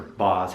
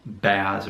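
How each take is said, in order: First: "Boz" said with an open AH; "Boz" as an alternative reading, vowel AH. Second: "Baz" said with the flat A of "jazz"; "Baz" with a short A, as in "cat". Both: Shown as a demonstration. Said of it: "however you pronounce B A Z".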